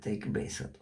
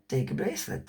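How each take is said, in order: First: Whispered repeat. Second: Said in the usual way. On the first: Retold or imitated. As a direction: take a bracelet whispered soft and low, unvoiced. They urge her twice.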